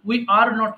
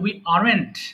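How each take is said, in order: First: Each word is said separately and fully. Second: The last two words merge into one syllable. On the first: "উই আর নট কে বলা হচ্ছে" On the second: "বলা হচ্ছে উই আরএন্ট"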